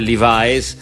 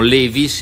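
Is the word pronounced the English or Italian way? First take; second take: English; Italian. First: It is said with an English pronunciation. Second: It is said with an Italian pronunciation. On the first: "i jeans invece Levi's" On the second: "diciamo Levi's"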